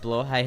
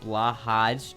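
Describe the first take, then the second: First: It is said with the original Swedish pronunciation. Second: It is said with an anglicized spelling-based pronunciation. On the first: The speaker calls it right. "blowhigh is how it's pronounced" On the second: The speaker calls it wrong. "the mispronunciation common usage"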